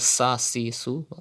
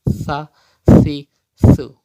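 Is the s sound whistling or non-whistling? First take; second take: whistling; non-whistling. First: The s sounds are said with a whistle. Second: The s sounds are said without a whistle. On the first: The speaker calls it wrong. "Don't read as" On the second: The speaker calls it right. "Like this"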